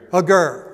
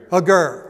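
First: The stress falls on the second syllable. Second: The same.

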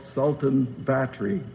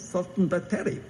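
First: The name is said in plain English pronunciation. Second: The name is said with a local pronunciation.

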